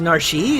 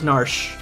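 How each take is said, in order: First: The name is said as two syllables. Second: The name is said as one syllable. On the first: The speaker calls it wrong. "Pronouncing it as Narshi? That's, that seems weird" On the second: The speaker calls it right. "I always pronounce it as Narsh"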